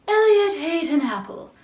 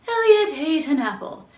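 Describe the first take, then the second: No difference in how they are said.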